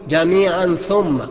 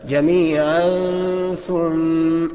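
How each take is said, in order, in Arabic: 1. صوت النون يُنطق كاملًا وواضحًا. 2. صوت النون مخفي مع غنة خفيفة. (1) "اوعى تقول جميعا ثم، ما تظهرهاش فيها" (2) "هكذا"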